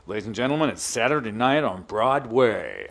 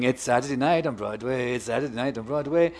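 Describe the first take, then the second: First: Stage manager's announcement. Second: Chanted, light singsong repeat of the catchphrase; Saturday-night chant. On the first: Retelling the backstage call before the evening show, imitated announcer. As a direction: imitate a tannoy call, stretching the last words. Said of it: "the speaker would come on and he'd go". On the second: Retelling his Instagram routine from Broadway, lightly chanted. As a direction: chant it casually, at talking volume. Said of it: "I started to do this thing on Instagram". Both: Retold or imitated.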